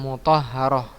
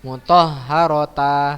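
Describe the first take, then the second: First: The word ends with an h sound. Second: The word ends with a t sound and vowel. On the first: The speaker calls it right. "jadi ha dia ya" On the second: The speaker calls it wrong. "bukan antum baca mutahharota, salah ya"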